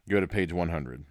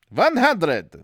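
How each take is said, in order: First: Said in the usual way. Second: Loud, high hammed-up German accent; mock German accent. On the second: Narrator repeating the page number, mock German accent. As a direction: bark it in a cartoon German accent.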